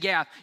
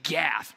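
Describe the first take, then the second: First: The word is said plainly, without menace. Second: The word is said in a gruff, menacing way. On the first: The speaker calls it wrong. "you can't say Gath" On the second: The speaker calls it right. "you got to say Gath, right? You got to say it with a little uh in it"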